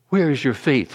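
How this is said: It is said in a gentle, compassionate tone. The asker feels tenderly toward the listeners. "Or was he compassionate?"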